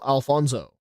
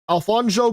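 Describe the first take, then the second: First: The middle consonant is a plain s sound. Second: The middle consonant is a sh sound. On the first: The speaker calls it wrong. "He gets offended if you pronounce it as uh" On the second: The speaker calls it right. "Pronouncing the sh sound is very important"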